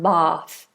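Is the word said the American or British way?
British. It is said with a long British vowel. "in standard British English, this would be bath, long vowel, tongue down"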